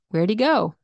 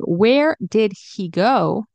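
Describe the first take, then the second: First: The words are reduced, the h is dropped. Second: The full words are said, h clearly pronounced. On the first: "He can turn into E" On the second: "Instead of saying"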